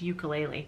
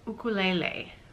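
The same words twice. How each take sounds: First: It is said the usual Canadian way. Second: It is said the Hawaiian way. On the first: "how I've always said it, which is how everybody around me here in Canada says it" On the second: "Lisa says that it's ukulele"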